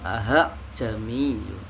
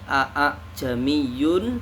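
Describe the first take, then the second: First: The second glottal stop is softened and merged in. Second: Two glottal stops are said separately at the start. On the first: "hamzah kotanya digabung" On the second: "Yang awalnya"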